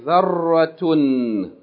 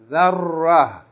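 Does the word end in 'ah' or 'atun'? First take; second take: atun; ah. First: The word ends in a t sound plus 'un'. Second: The word ends in an h sound, no vowel. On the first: The reader continues to the next word. "if you keep reading, you say zarratun" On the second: The reader stops on this word. "if you stop on it, you don't pronounce its vowels at all, and you pronounce the sound of the tarmabuta as ha"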